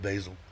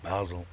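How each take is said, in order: First: The word is said the American way. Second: The word is said the British way. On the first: "instead of Basil" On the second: "the British way, Basel"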